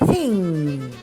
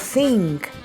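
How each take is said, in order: First: The word ends in a plain nasal ng sound. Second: The word ends with an added k sound. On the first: The speaker calls it right. "It is thing" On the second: The speaker calls it wrong. "or nk"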